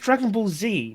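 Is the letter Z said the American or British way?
American. The letter Z is said the American way. The speaker calls it right. "it's Dragon Ball Z"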